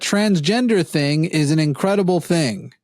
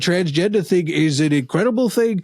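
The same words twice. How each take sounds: First: It is read in the speaker's own voice. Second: It is said in a put-on imitating voice. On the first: "This is an exact quote" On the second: "I could do the voice"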